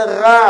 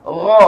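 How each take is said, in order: First: Ra as a thin ghain with a flat open a; wrong, thin. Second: Ra loud and thick, tongue root lifted; raised sound. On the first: Teacher warns against this ghain, thin wrong demo. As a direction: say ra without lifting the tongue root. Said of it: "Ghain jangan dibaca". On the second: Teacher corrects the thin reading, raised demo. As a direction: hit Ra with a heavy rounded ghain. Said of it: "Angkat pangkal lidah". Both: Shown as a demonstration.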